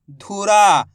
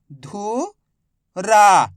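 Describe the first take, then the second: First: Said in the usual way. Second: धुरा drawn out slowly as धु... रा; stretched syllables. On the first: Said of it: "मिलके बन जाएगा". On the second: Shown as a demonstration. Teacher to pupils, stretching धुरा slowly. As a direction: spell out धुरा syllable by syllable, very slow. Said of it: "पढ़ने की कोशिश".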